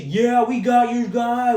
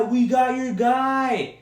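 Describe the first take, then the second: First: Slow, high, louder gloating taunt; smug slow taunt in a put-on rival voice; mocking rival fan. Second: High, slow, yelled gloat; a mock rival fan crowing at full voice; shouted rival-fan taunt. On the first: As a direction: lord it over them like a smug rival fan. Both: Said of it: "all you Vikings fans were talking shit".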